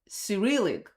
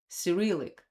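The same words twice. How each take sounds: First: It is said the English way. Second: It is said the English way.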